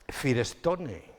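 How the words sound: It is read letter by letter, Spanish style. The foreign name is adapted to local spelling habits. The speaker calls it wrong. "Aquí decíamos Firestone"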